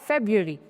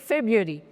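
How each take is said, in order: No difference in how they are said.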